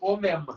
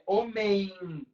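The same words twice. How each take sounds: First: The final M is not said as a glide. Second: The final M is said as a glide. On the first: The speaker calls it wrong. "ela não é homem" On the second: The speaker calls it right. "ela é homem. Esse M representa a semivogal I"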